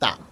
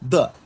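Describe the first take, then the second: First: The word begins with an unvoiced t sound. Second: The word begins with a voiced d sound. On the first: "যখন চাইনিজরা ফ্লুয়েন্ট কথা বলে, তখন কিন্তু দাটা হয় তা।" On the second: "but actually ডি এর উচ্চারণটা হল দা।"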